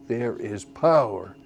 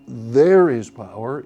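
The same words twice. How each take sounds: First: "There is" light, "power" landing with a fall; pickup stress. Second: "There" hit first, slow and loud; wrong stress. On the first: Teacher showing the right accent on "power". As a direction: lean into "power". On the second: Teacher showing the wrong accent on "There". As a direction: start "There is power" on the downbeat. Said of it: "the chorus does not start". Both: Shown as a demonstration.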